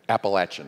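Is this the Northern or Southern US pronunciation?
Southern. It is said the Southern US way.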